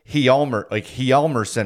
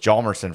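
First: The name is said with a Swedish pronunciation. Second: The name is said with an American pronunciation. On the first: This is how the player's countryman says it. The speaker calls it right. "but he said Hjalmarsson or something" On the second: This is how everyone here has been saying it. The speaker calls it wrong. "we've all said Nicholas Hjalmarsson forever"

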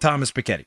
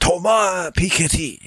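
First: The name is said in a plain American accent. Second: The name is said in a put-on French accent.

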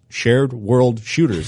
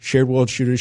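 First: It is said at a normal speed. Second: It is said very fast.

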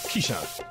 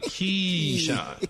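First: The name is said plainly, without emphasis. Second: The name is said with strong, swaggering emphasis.

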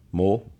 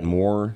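First: The final R sound is dropped. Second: The final R sound is pronounced. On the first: "But he says mo" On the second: "M-O-R-E is a word"

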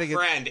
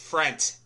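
First: The word ends with a D sound. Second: The word ends with a T sound. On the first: The speaker calls it wrong. "It's not friend" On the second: The speaker calls it right. "it's frent. Anything that ends with D ends with a T"

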